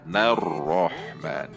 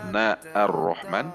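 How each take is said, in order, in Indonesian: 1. Kata-kata itu menyambung tanpa hamzah. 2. Bunyi hamzah vokal terpisah dilafalkan sebelum nar-Rahman. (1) "Tidak dibaca na ar-Rahman tetapi nar-Rahman" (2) "Tidak dibaca na ar-Rahman"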